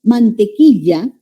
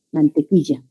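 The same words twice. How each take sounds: First: Mantequilla slowly with a clear LL sound; standard LL. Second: Mantequilla with LL said as Y, mantequiya; coastal yeísmo. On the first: Teacher showing the distinct double L. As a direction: hold the LL in mantequilla. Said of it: "Confundimos la doble L con la Y". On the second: Teacher imitating the coastal yeísmo. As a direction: turn the LL in mantequilla into a Y. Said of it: "en la costa vamos a señalar". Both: Shown as a demonstration.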